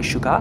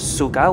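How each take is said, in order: First: The word begins with an sh sound. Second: The word begins with a plain s sound. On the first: "we say sugar" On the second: "it's spelled S-U-G-A-R, instead of sugar"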